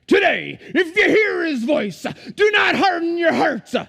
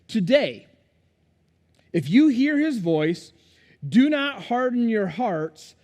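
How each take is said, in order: First: It is delivered in an angry, preaching tone. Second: It is read in a calm, plain tone.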